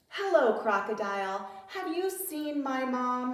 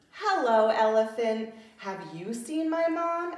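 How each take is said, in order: First: Higher, eager cub asking for mom; repeated question to the crocodile; little lion voice. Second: Higher, louder eager cub; repeated question to the elephant; little lion voice. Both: Acted. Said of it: "asked Little Lion".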